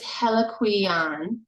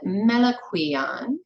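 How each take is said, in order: First: The word begins with an H sound. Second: The word begins with an M sound. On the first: "Dela Prince's pronunciation is Heliquion" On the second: "Jerry James said Meliquion"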